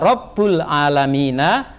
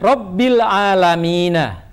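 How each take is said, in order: First: The first word ends with an u vowel. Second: The first word ends with an i vowel. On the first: The speaker calls it wrong. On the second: The speaker calls it right.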